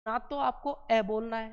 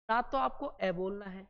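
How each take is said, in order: Both takes have the same delivery.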